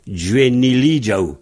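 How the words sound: The ending has a soft j sound.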